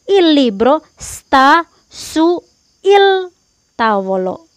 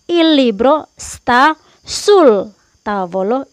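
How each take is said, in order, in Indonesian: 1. Su dan il diucapkan sebagai dua kata terpisah. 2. Su dan il digabung menjadi satu kata, sul. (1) "Itu salah" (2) "itu korek"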